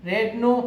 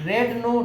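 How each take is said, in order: No difference in how they are said.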